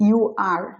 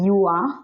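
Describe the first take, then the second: First: You are as two full words; uncontracted form. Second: You are run together as "you-a"; contracted form. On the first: Teacher giving the full form, you are with both words whole. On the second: Teacher showing the contraction, you are merged as "you're". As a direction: drop the r and blend you are. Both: Shown as a demonstration. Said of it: "এটাকে উচ্চারণ করছে".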